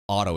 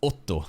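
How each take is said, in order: First: The name is said with English sounds. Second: The name is said with Japanese sounds. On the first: The speaker calls it wrong. "It's not like Otto" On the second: The speaker calls it right. "in accordance with the Japanese pronunciations"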